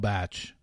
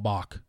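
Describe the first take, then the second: First: The word rhymes with catch, ending in ch. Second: The word rhymes with rock, like the composer. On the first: It is short for The Bachelor. The speaker calls it right. "That is hilarious that Ben thought that's how you pronounced it" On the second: It refers to the composer. The speaker calls it wrong. "There is a musician, a composer named Bach"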